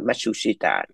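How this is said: The name is said with four syllables. This is how Americans say it. "bên Mỹ nó gọi Matsushita for cái syllables"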